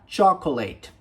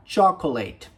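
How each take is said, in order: First: The 'a' vowel is clearly pronounced. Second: The same.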